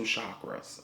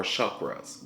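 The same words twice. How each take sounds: First: Chakras with "ah" in the first syllable; "shock-ruhz" for chakras; mispronounced chakras. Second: Chakras with "uh" in the first syllable; "shuck-ruhz" for chakras; corrected chakras. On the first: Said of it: "I'm pronouncing it wrong". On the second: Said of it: "It's pronounced chakra". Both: Real, not acted.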